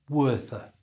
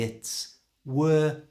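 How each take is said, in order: First: The phrase is said quickly at normal speed. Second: The phrase is said slowly and deliberately. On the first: "And at normal speed" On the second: "So slowly"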